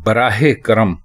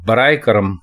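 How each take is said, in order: First: The first word is said with an h sound. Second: The first word is said without an h sound. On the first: The speaker calls it right. "बराहे करम दुरुस्त है" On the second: The speaker calls it wrong. "बराए करम गलत है"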